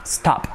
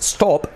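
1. La vocal suena más cercana a una a abierta. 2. La vocal suena como una o española. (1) "es casi más una stop" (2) "la O no es stop"

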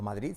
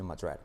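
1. Se dice con pronunciación española. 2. Se dice con pronunciación inglesa. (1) "No Madrid" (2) "sino Madrid"

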